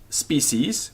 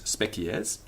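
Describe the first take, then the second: First: It is said with English pronunciation. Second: It is said with Latin pronunciation.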